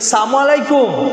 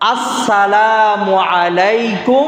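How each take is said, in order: First: The 'l' sound is dropped, giving saam. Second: The 'l' sound in salaam is clearly pronounced. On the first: It wishes quick death upon the listener. The speaker calls it wrong. "লাম বাদ দিয়া সাম বলে" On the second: It wishes peace upon the listener. The speaker calls it right. "এটা হচ্ছে কি পূর্ণাঙ্গ সালাম এবং বিশুদ্ধ উচ্চারণ"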